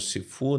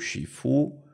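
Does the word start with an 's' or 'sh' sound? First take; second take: s; sh. First: The word begins with a plain s sound. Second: The word begins with an sh sound. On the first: The speaker calls it wrong. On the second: The speaker calls it right.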